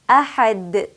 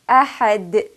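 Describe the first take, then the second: First: The final consonant ends with an echoing bounce. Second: The final consonant ends with an echoing bounce.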